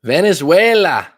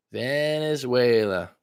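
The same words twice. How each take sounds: First: Loud, high, drawn-out call; mock-rousing shout, slowed down; playful call-out. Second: Slow, stretched word gliding down; lingering, playful drawl; drawn-out echo. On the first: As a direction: belt out the country name playfully, pitch swooping up. Playfully calling out the country. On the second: Pretend. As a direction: stretch the country name out long without shouting. Same word again, softer and stretched.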